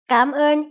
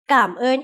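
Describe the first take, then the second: First: The first syllable has a rising tone. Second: The first syllable does not have a rising tone. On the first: An informal spoken form that is easier to pronounce. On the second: The standard form used in writing and speaking.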